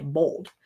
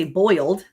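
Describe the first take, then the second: First: Softer Texas "bold" for boiled, oy flattened to o; Texas pronunciation. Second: "boiled" with a clear OY vowel; her own pronunciation. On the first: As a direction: say Texas "bold" with a long o, lightly. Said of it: "here in Texas, they say bold". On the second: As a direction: say "boiled" as boyld. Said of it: "I say boiled". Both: Shown as a demonstration.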